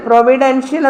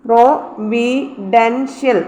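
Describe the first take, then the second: First: Said in the usual way. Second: providential very slowly, each syllable set apart. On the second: Shown as a demonstration. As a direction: split providential into four spaced syllables. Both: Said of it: "ഡിയുടെ മേളിലായിരുന്നു stress".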